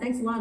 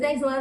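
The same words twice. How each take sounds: First: The voice fades away at the end. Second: The voice stays strong to the end.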